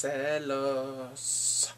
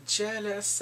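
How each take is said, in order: First: Drawn-out Spanish "jealous", as "celos"; Spanish pronunciation. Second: Said in the usual way. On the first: Real, not acted. Recapping Bongsu's mom, "jealous" stretched into Spanish "celos".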